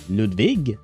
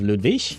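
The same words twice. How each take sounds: First: The name ends with a hard g sound. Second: The name ends with a soft ich sound. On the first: It follows the southern German pronunciation. "shouldn't he pronounce it Ludwig instead of" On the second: It follows the northern German pronunciation. "you said the northern pronunciation would be ich"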